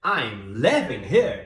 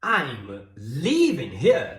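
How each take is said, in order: First: Slow, "living" with a short lax i. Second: Very slow, "leaving" with a drawn-out ee; long EE in leaving. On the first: Teacher demonstrating a minimal pair, "living" slow with short i. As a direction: spell out slowly, short open i in "living". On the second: Teacher demonstrating a minimal pair, "leaving" slow with long ee. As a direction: slowly stretch the tense ee in "leaving". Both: Shown as a demonstration. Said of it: "São significados completamente diferentes".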